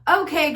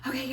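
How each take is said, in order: First: The voice is firm, projected and confident. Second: The voice is unsure, halting and hesitant. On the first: The speaker is in control of the class. The speaker calls it right. "introduce yourself with confidence. So when you start class, you need to be like" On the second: The speaker is nervous in front of the class. The speaker calls it wrong. "Like you don't want to be like"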